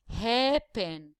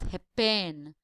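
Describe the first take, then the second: First: The first syllable is stressed and lengthened. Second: The last syllable is stressed and lengthened. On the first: The speaker calls it right. "So the first syllable is the stressed one" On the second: The speaker calls it wrong. "and not happen"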